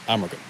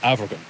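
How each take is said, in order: First: The middle consonant is an M sound. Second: The middle consonant is a V sound. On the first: The speaker calls it wrong. "not Amergan" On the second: The speaker calls it right. "So it's Avergan"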